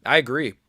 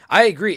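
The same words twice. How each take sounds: First: Said in the usual way. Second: Higher and louder emphatic agree; louder insisting repeat; emphatic agreement. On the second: Real, not acted. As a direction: hit it again with more force.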